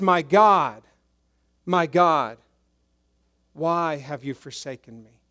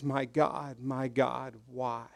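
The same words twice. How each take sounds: First: Louder pleading cry that fades by the end; a touch of anguish. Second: Soft, lower, broken-off question; almost breathe the words; quiet, lost plea; hushed anguish. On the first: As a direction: call out, then let it sink. Translating Jesus' cry. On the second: Jesus realizes God turned away. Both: Retold or imitated.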